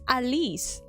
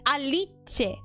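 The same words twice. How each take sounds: First: The name is said with English pronunciation. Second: The name is said with Esperanto pronunciation. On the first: "but then it's Alice" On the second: "the way you pronounce it in Esperanto"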